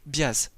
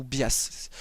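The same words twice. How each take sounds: First: "Bias" dit lentement, en premier essai; hésiter sur la prononciation de "Bias"; première prononciation hésitante. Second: "Bias" en variante, dit lentement; autre prononciation hésitante. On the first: («Bias» prononcé lentement, sans assurance) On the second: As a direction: proposer une autre façon de dire "Bias". («Bias» en deuxième essai, prononcé lentement) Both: Shown as a demonstration. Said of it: "je sais pas comment on le prononce".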